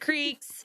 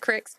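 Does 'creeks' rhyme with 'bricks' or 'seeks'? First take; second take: seeks; bricks. First: The vowel is long, as in 'seeks'. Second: The vowel is short, as in 'bricks'. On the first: The speaker calls it right. "but the creeks" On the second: The speaker calls it wrong. "not the cricks"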